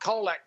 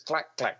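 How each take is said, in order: First: The name is said with two syllables. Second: Each part is said as one syllable. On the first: The speaker calls it wrong. "it's not Kolak" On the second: The speaker calls it right. "it's Clack Clack"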